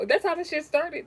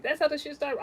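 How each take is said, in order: First: Emphatic. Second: Emphatic repeat. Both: Real, not acted.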